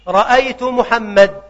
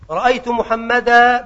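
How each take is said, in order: First: The name ends in a bare consonant. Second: The name ends in a long a vowel. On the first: This is the pausal form of another dialect group. "ولا يقولون محمدا" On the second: This is the pausal form of one dialect group. "بالألف"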